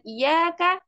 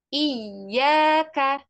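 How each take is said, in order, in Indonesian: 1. Bunyi y-nya tunggal dan pendek. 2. Bunyi y-nya ganda dan ditahan. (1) "Kalau dengan tidak tasydid" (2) "gunakan atau bacanya dengan tasydid"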